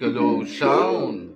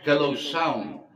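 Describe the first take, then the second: First: The voice sounds like a demon. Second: The voice sounds slightly robotic, like auto-tune. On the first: "Parang demonyo" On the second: "parang medyo may pagka-robotic"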